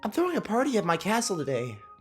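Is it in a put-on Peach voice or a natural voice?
natural voice. It is said in his natural voice.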